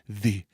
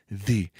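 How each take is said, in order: First: The th sound is voiced, with vocal buzz. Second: The same.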